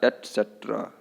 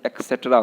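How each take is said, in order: First: The word begins with an 'ets' sound. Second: The word begins with an 'eks' sound. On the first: The speaker calls it right. "क्या बोलना है?" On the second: The speaker calls it wrong. "एक्सेट्रा बोल देते हैं, जो कि गलत है"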